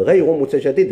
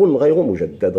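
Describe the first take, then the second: First: متجدد with the ta syllable sounded; corrected full form. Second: مجدد said slowly, without the ta syllable; slow down on مجدد, a doubled d; shortened wrong form. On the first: Teacher correcting the condition for students, متجدد in full. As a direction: say متجدد in full, ta then doubled d. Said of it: "هيدا". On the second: Teacher reciting the condition, مجدد slow without ta. Misreading, then corrected wording. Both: Shown as a demonstration.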